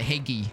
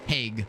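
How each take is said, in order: First: The word is said as two syllables. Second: The word is said as one syllable. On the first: The speaker calls it wrong. "Or is it Hagee?" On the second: The speaker calls it right. "with a hard G"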